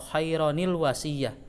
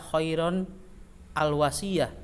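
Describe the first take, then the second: First: An inserted 'ni' sound links the two words. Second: The words join with no inserted 'ni' sound. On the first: The speaker calls it right. "harus ada nun wiqayah di situ" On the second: The speaker calls it wrong. "tidak dibaca khairon al wasiyah"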